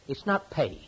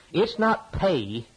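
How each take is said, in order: First: Said in the usual way. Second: Slow, weighted delivery, "not" drawn out and leaned on; stress on not. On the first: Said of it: "restated calmly". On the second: Real, not acted. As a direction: lean hard on "not" to drive the point home. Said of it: "preacher contrasting pay with plead".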